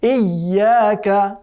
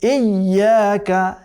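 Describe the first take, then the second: Both takes have the same delivery.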